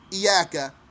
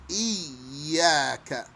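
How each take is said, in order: First: The y sound is short and single. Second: The y sound is doubled and held. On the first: The speaker calls it wrong. "don't say iyaka" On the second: The speaker calls it right. "So we have a doubled ya"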